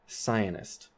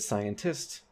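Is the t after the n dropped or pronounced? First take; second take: dropped; pronounced. First: The t after the n is dropped entirely. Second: The t after the n is clearly pronounced. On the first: "they will say cyanist" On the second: "instead of scientist"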